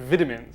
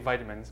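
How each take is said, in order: First: The word is pronounced in a non-Midwestern way. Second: The word is pronounced in a Midwestern way. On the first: Someone else said it this way. "He said vitamins" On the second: This is how the speaker says it. "I say vitamins. Maybe I'm just from the Midwest"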